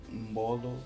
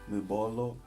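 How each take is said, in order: No difference in how they are said.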